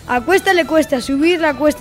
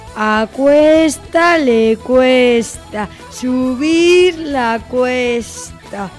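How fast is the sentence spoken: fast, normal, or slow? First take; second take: normal; slow. First: The sentence is spoken at a normal pace. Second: The sentence is spoken at a slow pace. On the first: "Vamos con la velocidad normal" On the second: "Vamos con la velocidad lenta"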